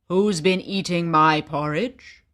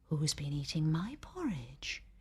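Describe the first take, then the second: First: It is said in a loud voice. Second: It is said in a soft voice. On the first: "he said in his loud voice" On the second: "she said in her soft voice"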